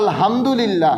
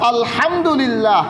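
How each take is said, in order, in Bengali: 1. h ধ্বনিটি হালকা ও সাধারণ। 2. h ধ্বনিটি চাপা ও শক্ত। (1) "অনেকেই বলে" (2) "হাকে চাপ দিয়ে পড়া"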